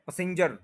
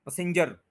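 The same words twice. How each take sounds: The two takes are said the same way.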